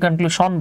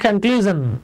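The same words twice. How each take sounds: First: The last syllable is said with a 'shun' sound. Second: The last syllable is said with a 'zhun' sound. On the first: The speaker calls it wrong. "অনেকে এটাকে কনক্লুশন বলে" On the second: The speaker calls it right. "Vowel plus এস আই ও এন থাকে তাহলে উচ্চারণ হয় জন ... তাই এটা হবে"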